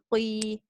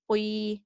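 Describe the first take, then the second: First: The vowel is said with a w-like glide. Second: The same.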